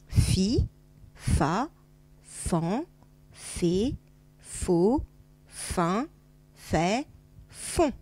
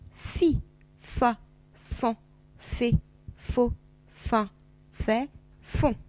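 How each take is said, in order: First: The syllables are read at a slower pace. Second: The syllables are read a little faster.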